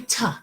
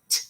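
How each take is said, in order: First: The letter name is said with a long vowel. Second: Only a short, clipped t sound is said. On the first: The speaker calls it wrong. "It doesn't say T" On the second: The speaker calls it right. "T is a short sound"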